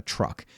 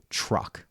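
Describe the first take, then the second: First: Drawn-out Texan "truck" with an ER vowel; Texan accent. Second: Said in the usual way. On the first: Shown as a demonstration. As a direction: stretch "truck" toward "trurk" like a Texan. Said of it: "Think about a Texan accent". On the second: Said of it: "what I would call truck".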